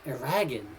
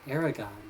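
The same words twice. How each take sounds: First: The name rhymes with dragon. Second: The name does not rhyme with dragon. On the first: The speaker calls it wrong. "like like dragon" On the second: The speaker calls it right. "I didn't think it was pronounced Aragon"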